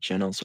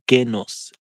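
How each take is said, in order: First: The name starts with a soft J sound. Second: The name starts with a hard G sound.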